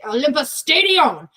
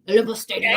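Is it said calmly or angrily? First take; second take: angrily; calmly. First: It is said in an angry way. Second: It is said in a calm, plain way.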